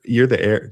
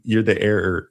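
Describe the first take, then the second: First: "heir" as one short syllable, "air"; "heir" clipped to a single "air" sound; heir said right. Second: "heir" stretched into two syllables like "error"; "heir" with an extra "-er", sounding like "error". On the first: Setting straight the word heir, said like "air". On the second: Correcting the movie word, first slipping into "error". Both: Real, not acted. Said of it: "not the error".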